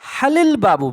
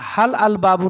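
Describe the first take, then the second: First: Hal links into the article as halil. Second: Hal and al are said as separate words. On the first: The speaker calls it right. "মনে রাখতে হবে কিন্তু" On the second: The speaker calls it wrong. "না"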